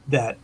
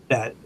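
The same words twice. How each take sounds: No difference in how they are said.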